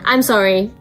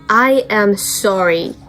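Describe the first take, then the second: First: The words are contracted into one quick form. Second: Each word is said fully and separately. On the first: The apology sounds casual and less serious. "ちょっとみたいな" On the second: The apology sounds sincere and serious. "この一語ずつ言うのがすごい伝わるんですよ"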